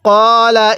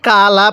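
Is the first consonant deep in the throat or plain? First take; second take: deep; plain. First: The first consonant is a deep throat q. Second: The first consonant is a plain front k. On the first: The speaker calls it right. "কফকে কফের মতো করে উচ্চারণ করতে হবে।" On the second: The speaker calls it wrong. "অনেকেই কা লা পড়ি, যদি কা লা পড়ি তাহলে কিন্তু পড়াটা সহিশুদ্ধ হবে না।"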